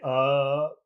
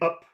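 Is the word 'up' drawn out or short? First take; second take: drawn out; short. First: The word is drawn out and held long. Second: The word is said short and clipped. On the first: The speaker calls it right. "make it long" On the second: The speaker calls it wrong. "instead of saying up"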